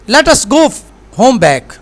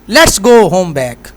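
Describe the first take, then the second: First: "Let us" is said as two full words. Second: "Let us" is shortened to one syllable, "let's".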